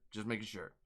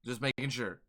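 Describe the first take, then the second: First: Much softer, lower alter-ego take of "Just making sure."; Dark [name] voice. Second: Said in the usual way. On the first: Shown as a demonstration. Streamer checking who chat means, softer, lower alter-ego voice. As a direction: answer as his darker alter ego. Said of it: "are you talking to Dark [name]". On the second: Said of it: "are you talking to me or are you talking to Dark [name]".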